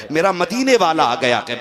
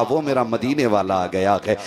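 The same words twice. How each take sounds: First: Higher, louder joyful repeat; मदीने stretched, higher and louder; rising joy. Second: Said in the usual way. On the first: Acted. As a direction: lift it with joy the second time. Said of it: "repeat, raised". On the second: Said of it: "first take of repeated line".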